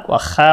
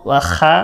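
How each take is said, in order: No difference in how they are said.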